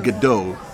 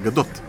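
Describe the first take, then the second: First: The name ends without a final T sound. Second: The name ends with a clear final T sound. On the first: The speaker calls it wrong. "זה silent T" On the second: The speaker calls it right. "זה לא silent T, זה גדות"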